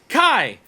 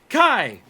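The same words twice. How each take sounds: Both takes have the same delivery.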